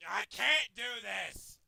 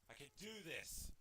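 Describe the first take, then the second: First: Loud, slow "can't"; drawn-out frustrated complaint; exasperated cry. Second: Very soft, low murmur; steady yourself under your breath; hushed pep talk to self; quiet self-encouragement. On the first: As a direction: wail it out slowly, giving up. Giving up loudly. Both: Real, not acted.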